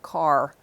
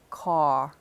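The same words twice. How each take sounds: First: The R after the vowel is pronounced. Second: The R after the vowel is dropped. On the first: This is how it is said elsewhere. "instead of" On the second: This is how some New Yorkers say it. "you'll hear some New Yorkers drop the R"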